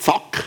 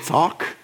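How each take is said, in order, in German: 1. Der Vokal ist kurz und abgehackt. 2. Der Vokal ist lang und gedehnt. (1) "nicht Zack" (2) "sondern Zaak"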